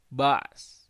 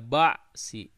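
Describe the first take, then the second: First: The word ends abruptly on the consonant. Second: The word ends with a short i vowel. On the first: The speaker calls it right. "tapi ba's" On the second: The speaker calls it wrong. "Jadi tidak ba'si"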